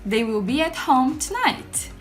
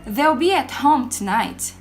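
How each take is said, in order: First: Will is said as a full separate word. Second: Will is contracted and joined to they. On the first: The speaker calls it wrong. "vocês não vão ouvir os gringos falando assim" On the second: The speaker calls it right. "no seu ritmo de fala normal, provavelmente falaria essa frase assim"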